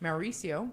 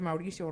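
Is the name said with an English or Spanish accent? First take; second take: English; Spanish. First: The name is said with an English accent. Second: The name is said with a Spanish accent. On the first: "the other quarter of my family says it"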